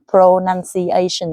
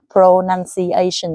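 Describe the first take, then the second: First: Every syllable gets roughly equal stress. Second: The same.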